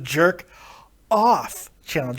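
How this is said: The phrase has a breath pause inside it. The speaker calls it right.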